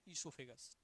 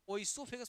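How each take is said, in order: First: The word begins with an 'ee' sound. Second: The word begins with an 'oy' sound. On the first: The speaker calls it right. "वो वहां silent है, इसोफेगस हो गई बात ना।" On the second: The speaker calls it wrong. "ओइसोफेगस मत पढ़ना, ओइसो नहीं।"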